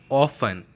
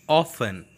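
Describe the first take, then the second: No difference in how they are said.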